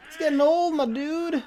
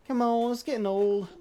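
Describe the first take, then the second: First: Raised, higher call across the map; louder calling out. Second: Said in the usual way. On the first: Real, not acted. Calling out to the hiding player, louder and higher. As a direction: call it out loud and high, impatient.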